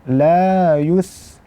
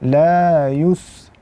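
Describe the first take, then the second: First: The lips return to neutral for the s sound. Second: The lips stay rounded through the s sound. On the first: The speaker calls it right. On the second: The speaker calls it wrong.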